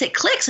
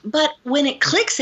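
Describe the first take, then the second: First: Clicks leaps up high, emphatic; stress on clicks. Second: Said in the usual way. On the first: Shown as a demonstration. Telling the host how the insight lands, clicks hit high. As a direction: land the word clicks at the top of the voice.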